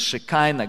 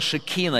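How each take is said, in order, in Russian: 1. Средняя гласная звучит как 'eye'. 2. Средняя гласная звучит как 'ee'. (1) "англичане, американцы произносят" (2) "Слово «шекина»"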